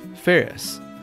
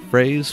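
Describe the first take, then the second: First: The name sounds like 'Ferris', two syllables. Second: The name sounds like 'Phrase', one syllable. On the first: The speaker calls it right. "My birth name is [name]" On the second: The speaker calls it wrong. "Commonly mispronounced as Phrase"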